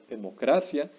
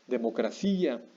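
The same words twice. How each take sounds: First: The i is not stressed; stress falls on 'cra'. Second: The i is stressed strongly; stress falls on 'ci'. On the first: The speaker calls it right. "no estamos pronunciando fuerte la I" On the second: The speaker calls it wrong. "no decimos"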